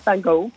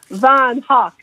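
First: The name is said with an American pronunciation. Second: The name has a long 'van' and ends like 'hawk'. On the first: "the Americans call it Van Gogh" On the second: "The Dutch elongate the van ... It's actually Hawk"

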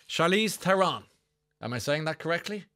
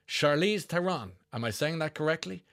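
Both takes have the same delivery.

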